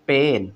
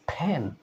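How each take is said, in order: First: The first consonant is plain, without breath. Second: The first consonant is aspirated, with breath. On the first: The speaker calls it wrong. "আগে বলতাম" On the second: The speaker calls it right. "ফ হিসেবে উচ্চারণ করব"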